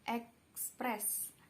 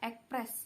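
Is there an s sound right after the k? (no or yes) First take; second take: yes; no. First: An s sound follows the k. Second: No s sound follows the k. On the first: This is the standard form. The speaker calls it right. "yang setelah k itu s itu adalah ekspres, itu adalah kata baku" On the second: This is the nonstandard form. The speaker calls it wrong. "kata yang tidak baku"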